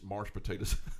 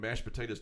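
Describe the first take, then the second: First: The word is said with an R sound. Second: The word is said without an R sound.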